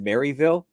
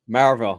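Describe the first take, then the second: First: The name is said the way newcomers say it. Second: The name is said the way locals say it. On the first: The speaker calls it wrong. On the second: The speaker calls it right.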